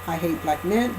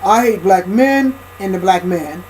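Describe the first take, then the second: First: Softer, calmer take on the same words; corrected quieter voice. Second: Hammed-up caricature of a bitter woman; lightly put-on angry caricature, then dropped; mock caricature voice. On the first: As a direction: say it quietly, more like a real woman would. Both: Shown as a demonstration.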